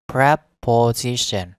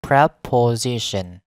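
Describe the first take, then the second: No difference in how they are said.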